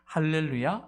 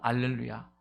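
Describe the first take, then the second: First: The word begins with an h sound. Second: The word begins without an h sound. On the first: "할렐이라는 말과" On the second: "알렐 이렇게잖아요"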